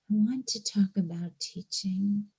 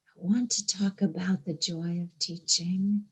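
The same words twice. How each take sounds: First: Said in the usual way. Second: Whispered, hushed and intimate. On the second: Real, not acted. To the congregation about teaching, whispered. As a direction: lean in and breathe the words. Repeated line, now whispered.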